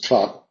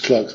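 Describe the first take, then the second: First: It is said with the British-style vowel. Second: It is said with the American-style vowel. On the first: The speaker calls it right. "en inglés británico es clerk... decimos clerk" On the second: The speaker calls it wrong. "No decimos clerks"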